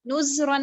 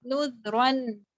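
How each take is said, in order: First: नुज़रन with a buzzing Z before the R; wrong Z sound. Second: नुज़रन with a soft TH-as-in-this instead of Z; soft dhal. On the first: Teacher showing what she did not read, नुज़रन with a Z. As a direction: say नुज़रन as nuz-ran. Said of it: "नुज़रन नहीं पढ़ा". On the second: Teacher modelling the right letter, नुज़रन with soft dhal. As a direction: say नुज़रन as nudh-ran, holding the soft dhal. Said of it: "दाल को नरम रखा". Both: Shown as a demonstration.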